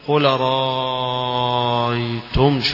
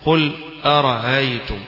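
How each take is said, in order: First: A vowel is drawn out with a long lengthening. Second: The second glottal stop is softened, not fully pronounced. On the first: "يمد مدا طويلة" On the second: "فكذلك هنا"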